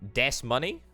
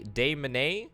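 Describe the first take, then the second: First: The first syllable ends with an s sound. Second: The first syllable ends without an s sound.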